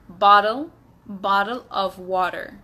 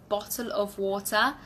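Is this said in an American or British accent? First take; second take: American; British. First: It is said in an American English accent. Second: It is said in a British English accent. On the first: "in American, it would be" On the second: "In my British English accent"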